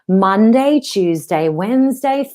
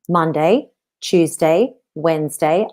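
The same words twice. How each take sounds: First: The words flow smoothly into one another. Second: The words are separated and chopped apart. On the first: "now I'm going to flow it together as I sing" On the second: "I could chop it up and make it stammery if I want"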